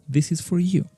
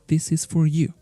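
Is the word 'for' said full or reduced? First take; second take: full; full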